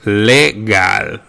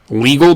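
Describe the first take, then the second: First: It is said with Spanish vowel sounds. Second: It is said with English vowel sounds.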